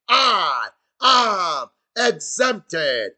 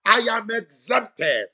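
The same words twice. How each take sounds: First: I am exempted drawn out very slowly and louder; stretched-out shout. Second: Said in the usual way. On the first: Shown as a demonstration. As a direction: stretch every word of I am exempted into a long, loud proclamation. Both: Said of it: "Somebody shout".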